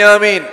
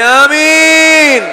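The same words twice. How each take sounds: First: It is said loudly. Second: It is said even more loudly.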